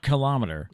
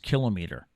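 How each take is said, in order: First: The word is not said as kill-o-meet-er. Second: The word is said as kill-o-meet-er. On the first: The speaker calls it wrong. "it's not kilometer" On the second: The speaker calls it right. "kill o and then m e e t would be how to pronounce it"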